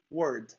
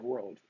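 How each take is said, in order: First: "word" said for world, with no L; dropped L. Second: "world" with an English R running into a clear L; full R and L. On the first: Brazilian shows compatriots' mistake, "word" without the L. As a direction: leave the L out, so it comes out "word". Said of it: "instead of world". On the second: Brazilian shows the tricky target, "world" with R and L both sounded. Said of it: "you need to roll the R". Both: Shown as a demonstration.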